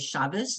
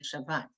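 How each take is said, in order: First: The word ends with an s sound. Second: The word ends with a t sound.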